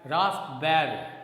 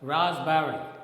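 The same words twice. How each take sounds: First: The p sound in the middle is pronounced. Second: The p sound in the middle is silent. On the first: The speaker calls it wrong. "generally we speak it as raspberry" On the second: The speaker calls it right. "here the sound pa is silent"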